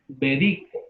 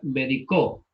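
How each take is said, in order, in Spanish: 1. La tónica está en la sílaba de en medio. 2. La tónica está en la última sílaba. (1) "como es llana"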